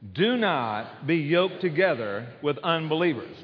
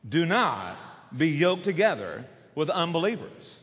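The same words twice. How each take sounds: First: No word is given special emphasis. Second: The word "not" is strongly emphasized.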